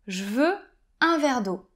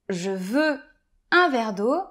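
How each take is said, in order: First: The word je is shortened to a j sound. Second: The word je is said in full. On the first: "je vais dire" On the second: "au lieu de dire"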